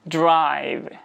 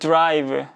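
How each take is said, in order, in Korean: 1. 영어식으로, 추가 모음 없이 발음합니다. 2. 한국식으로, 자음 사이에 모음을 더 넣어서 발음합니다. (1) "영어로 발음을 하게 되면" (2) "국어식으로 발음을 하게 되면 약간 이런 식으로 발음하죠"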